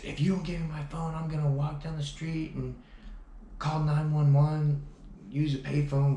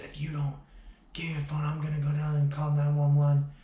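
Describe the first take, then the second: First: Mock threat, higher and louder; retold threat. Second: Half-whispered menace rising to a loud threat, higher; menacing threat. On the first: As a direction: imitate her shrill threat to call the cops. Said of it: "And she said". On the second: Retold or imitated. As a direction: mimic her evil, demonic warning. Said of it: "it looked like a demon".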